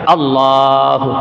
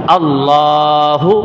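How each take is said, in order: Both takes have the same delivery.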